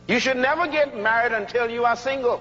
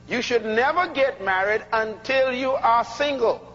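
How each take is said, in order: First: It is said at normal speed. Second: It is said very slowly.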